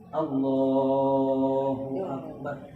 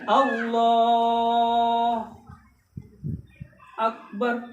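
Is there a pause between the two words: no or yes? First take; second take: no; yes. First: The two words run together without a pause. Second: There is a pause between the two words. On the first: The speaker calls it right. "dengan tidak terpisah" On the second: The speaker calls it wrong. "Berhenti sejenak atau berhenti yang sama panjang"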